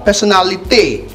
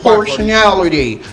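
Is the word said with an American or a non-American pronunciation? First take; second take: non-American; American. First: It is said with a non-American pronunciation. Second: It is said with an American pronunciation. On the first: The speaker calls it wrong. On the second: The speaker calls it right. "American pronunciation"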